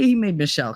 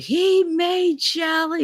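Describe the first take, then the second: First: Said in the usual way. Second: High, slow, furious words; raging father. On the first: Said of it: "he never called me Shelly". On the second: Retold or imitated. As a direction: spit it out like an enraged dad. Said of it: "he was like".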